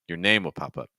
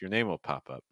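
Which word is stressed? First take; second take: name; pop. First: The stress falls on the word name. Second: The stress falls on the word pop. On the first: "I would actually probably put the stress here on name" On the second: "I'm okay if you stress pop in this case"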